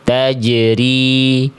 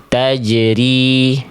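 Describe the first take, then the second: Both takes have the same delivery.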